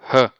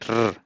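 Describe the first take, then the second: First: The sound is a breathy H-like sound. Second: The sound is a rolled, Spanish-like R. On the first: Most speakers say it this way. "you pronounce like h" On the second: Some regions say it this way. "like r, r, a little bit more with uh, Spanish accent"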